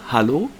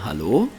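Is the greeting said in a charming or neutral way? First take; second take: neutral; charming. First: The greeting is said in a plain, neutral way. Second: The greeting is said in a warm, charming way. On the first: "jetzt sage ich es normal" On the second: "Man könnte es charmant sagen"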